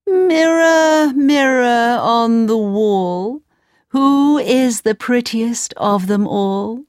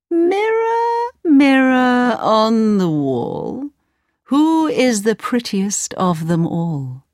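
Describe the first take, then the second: First: Queen voice. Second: High sing-song queen calling her mirror; the queen, lilting and slow. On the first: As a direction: call out grandly to the mirror. Queen asks mirror again. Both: Acted.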